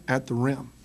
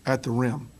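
Both takes have the same delivery.

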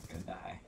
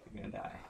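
First: Said in the usual way. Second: Much lower, mock villain threat; low taunting growl; menacing low growl. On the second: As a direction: drop the voice deep like a movie villain. Taunting enemy, deeper take.

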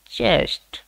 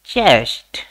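First: चेस्ट repeated higher and softer as CHEST. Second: चेस्ट said loud as CHEST; model word. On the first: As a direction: echo चेस्ट gently up high. (चेस्ट ऊँची pitch में धीरे दोहराना) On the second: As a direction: announce चेस्ट clearly for the class. (चेस्ट ज़ोर से बोलना) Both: Shown as a demonstration. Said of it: "तो उसे क्या बोलेंगे?".

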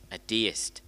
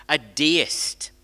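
First: "A deist." whispered, much softer; whispered repeat. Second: Said in the usual way. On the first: Shown as a demonstration. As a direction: echo the answer in a whisper. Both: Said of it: "here's the answer".

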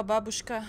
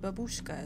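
First: "babushka" stressed on the first syllable; BA-bushka, stress up front; correct pronunciation. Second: "babushka" stressed on the middle syllable; ba-BUSH-ka, stress on BUSH; common mispronunciation. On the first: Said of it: "That's how you pronounce it". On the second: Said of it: "not babushka, as some say". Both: Shown as a demonstration.

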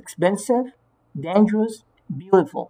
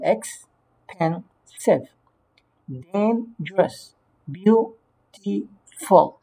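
First: Said in the usual way. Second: "expensive", "dangerous", "beautiful" very slowly broken into separate syllables. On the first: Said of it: "الصفات الطويلة". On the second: Shown as a demonstration. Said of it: "أقدر أجزئها". (نطق "expensive" و"dangerous" و"beautiful" ببطء مقطعًا مقطعًا)

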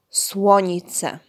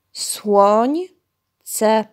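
First: Said in the usual way. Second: "Słońce" as two loud, drawn-out beats, Słoń, ce; split into syllables. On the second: Shown as a demonstration. Teacher counting syllables with children, "Słońce" split into Słoń, ce. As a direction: pause inside "Słońce" after a long, rising Słoń. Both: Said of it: "podzielić razem ze mną na sylaby".

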